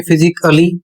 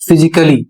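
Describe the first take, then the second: First: "फिजिकली" split as fi-zik a-lee; wrong pronunciation. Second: "फिजिकली" run together, the A barely heard; correct pronunciation. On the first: Teacher showing learners a misreading, wrong pronunciation. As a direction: sound a separate A in "फिजिकली". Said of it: "तो आप गलत पढ़ रहे हैं". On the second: Teacher modelling the word for learners, correct pronunciation. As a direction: join "फिजिकली" smoothly as fi-zik-lee. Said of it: "इसका सही उच्चारण होगा". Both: Shown as a demonstration.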